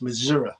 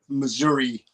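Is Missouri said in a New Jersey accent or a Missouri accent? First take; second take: Missouri; New Jersey. First: It is said the Missouri local way. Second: It is said in a New Jersey accent. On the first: The speaker calls it right. "but it's Missouri" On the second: The speaker calls it wrong. "us New Jersey people say"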